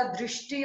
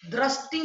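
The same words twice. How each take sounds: First: Said in the usual way. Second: दृष्टि said "drasti"; wrong vowel. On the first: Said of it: "होता है". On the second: Shown as a demonstration. Teacher correcting a mistake, दृष्टि as "drasti". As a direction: put "dra" for "dri" in दृष्टि. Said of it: "नहीं होता".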